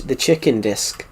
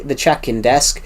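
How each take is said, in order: First: Slowed New Zealand vowels, "chicken disc"; imitated New Zealand pronunciation of "chicken disc"; New Zealand accent. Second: Said in the usual way. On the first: Shown as a demonstration. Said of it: "it sounds like a chi".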